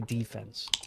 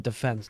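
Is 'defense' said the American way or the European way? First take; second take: American; European. First: It is said the American way. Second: It is said the European way. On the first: "When we're back in the states, we can say defense" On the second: "We're in Europe, so I say defense"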